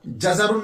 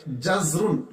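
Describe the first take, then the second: First: जजरुन said as ja-za-run; mispronunciation with extra vowel. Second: जजरुन said as jaz-run; correct vowelless z. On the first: Teacher showing students what not to read, जजरुन as ja-za-run. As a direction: open the z with an a, जजरुन as three syllables. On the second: Teacher giving students the proper reading, जजरुन as jaz-run. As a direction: close the first syllable on z, जजरुन as two syllables. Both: Shown as a demonstration. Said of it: "जजरुन नहीं पढ़ेंगे".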